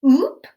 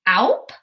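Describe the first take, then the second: First: The vowel sounds like oo in soup. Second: The vowel sounds like ow in cow. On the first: The speaker calls it right. "That's a word I've heard before" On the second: The speaker calls it wrong. "trying out both sounds, ow and oo"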